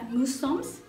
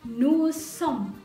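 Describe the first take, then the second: First: The final s sound is pronounced. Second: The final s sound is silent. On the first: The speaker calls it wrong. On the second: The speaker calls it right. "huruf S-nya juga nggak dibaca"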